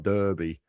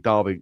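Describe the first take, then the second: First: The first vowel sounds like 'er' in 'her'. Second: The first vowel sounds like 'ar' in 'car'. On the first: "Read it as it is D E R" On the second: "So it's an A"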